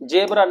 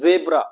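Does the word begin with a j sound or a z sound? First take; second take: j sound; z sound. First: The word begins with a j sound. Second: The word begins with a z sound. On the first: The speaker calls it wrong. "जेब्रा नहीं" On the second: The speaker calls it right. "जेड से बोलेगा जेब्रा"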